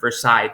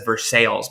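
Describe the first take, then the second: First: The name is said with a French-style pronunciation. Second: The name is said with an English-style pronunciation. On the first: The speaker calls it right. "it's a French word" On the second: The speaker calls it wrong. "Everybody says Versailles, but that's not how"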